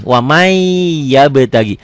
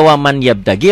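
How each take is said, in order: First: "Wamai yabtagi" with the n melted into a long held y; merged idgham reading. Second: "waman yabtagi" with a clear n ending waman; unmerged, unheld n in "waman yabtagi"; as written. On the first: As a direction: hold the end of "Wamai" before moving on to "yabtagi". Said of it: "Nih, kayak gini". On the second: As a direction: say "waman yabtagi" as spelt, the n not merged. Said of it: "Ditulisnya waman yabtagi, latennya". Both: Shown as a demonstration.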